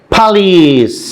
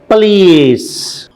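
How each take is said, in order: No difference in how they are said.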